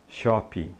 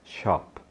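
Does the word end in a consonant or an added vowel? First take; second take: added vowel; consonant. First: An extra vowel sound is added after the final p. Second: The word ends cleanly on the p sound. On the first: The speaker calls it wrong. "a tendência que nós temos é colocar um I, essa vogal de apoio" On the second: The speaker calls it right. "não coloque o I no final"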